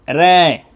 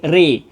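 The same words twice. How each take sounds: First: The vowel sits between a and e. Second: The vowel is a full e sound. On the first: "ingat bunyi kambing" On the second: "ro-nya dibaca dengan bunyi sate karena imalahnya kubro"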